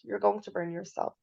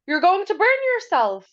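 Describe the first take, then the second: First: It is said calmly, in a neutral tone. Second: It is said urgently, with strong emotion. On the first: A plain statement of fact. "هون we have a period" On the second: An urgent warning with emotion involved. "I'm going to add my exclamation mark"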